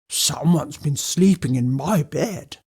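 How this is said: It is said in a deep, growly voice.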